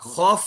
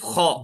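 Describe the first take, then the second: First: The word ends with an f sound. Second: The word ends on the vowel. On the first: The speaker calls it wrong. "खौफ नहीं" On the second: The speaker calls it right. "इसमें फा नहीं आता, सिर्फ खौ"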